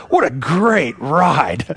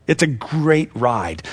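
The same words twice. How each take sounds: First: Slow and savoring, every word drawn out; slow, grateful exclamation. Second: Said in the usual way. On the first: Pretend. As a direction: relish it like a thankful sigh at the end. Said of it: "that's what we'll be able to say".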